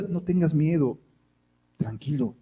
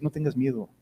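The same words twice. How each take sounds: First: Softer, gentle reassurance; soft comforting answer; soothing calm. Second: Soft, calm comfort; quiet soothing words; gentle reassurance. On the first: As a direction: settle him down tenderly. God's calm reply to the worrier. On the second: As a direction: hush a frightened child. God soothing a fearful believer. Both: Acted.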